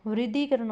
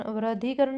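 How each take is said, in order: First: Said in the usual way. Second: वृद्धिकरण said as "vra-dhee-karan"; wrong first vowel. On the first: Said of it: "वृद्धिकरण होता है". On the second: Shown as a demonstration. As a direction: put "vra" for "vri" in वृद्धिकरण. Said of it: "वृद्धिकरण नहीं होता". (वृद्धिकरण को "व्रद्धीकरण" बोलते हुए)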